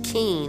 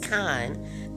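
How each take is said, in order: First: The vowel sounds like 'ee' in 'keen'. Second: The vowel sounds like 'eye' in 'kind'. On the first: The speaker calls it wrong. "I have been pronouncing it wrong for a minute, I was saying keen" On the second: The speaker calls it right. "and it's kine"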